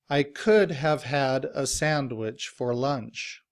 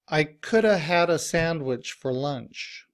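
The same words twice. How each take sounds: First: Every word is pronounced fully and clearly. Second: The function words are shortened and run together. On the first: "let's pronounce each of these words as your dictionary might tell you to pronounce them" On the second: "Let's look at this sentence in reduced form"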